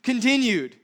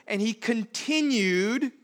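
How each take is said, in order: First: "Continued" punched higher and louder; stress on continued. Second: "continued" drawn out slow and lifted; stress on continued. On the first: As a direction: hit "Continued" hard. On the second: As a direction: lean on "continued", slowly. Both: Shown as a demonstration. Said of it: "Not resumed".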